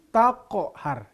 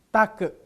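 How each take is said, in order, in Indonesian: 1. Konsonan akhir berakhir dengan pantulan gema. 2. Konsonan akhir berakhir datar, tanpa gema. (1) "tapi taqhar" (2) "bukan take"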